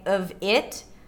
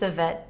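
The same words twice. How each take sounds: First: The words are said fully and separately. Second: The words are reduced and linked together. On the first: The speaker calls it wrong. "instead of saying of it" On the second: The speaker calls it right. "I'm going to do something like this"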